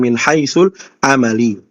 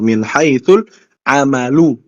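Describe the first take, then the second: First: The last word ends with an i vowel. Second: The last word ends with a u vowel. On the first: The noun is read as governed by the preceding word. The speaker calls it wrong. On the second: The noun is read as a subject. The speaker calls it right. "maka dibaca sebagai al-amalu"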